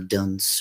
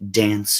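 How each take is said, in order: First: The vowel sounds like the one in 'dunce'. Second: The vowel sounds like the one in 'dance'. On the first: This is a playful alternative reading of the name. "let's call it dunce because I like that better" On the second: This is how the band members say it. "I would assume they pronounce it dance"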